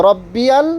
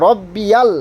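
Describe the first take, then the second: No difference in how they are said.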